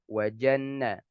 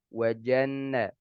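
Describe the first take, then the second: Both takes have the same delivery.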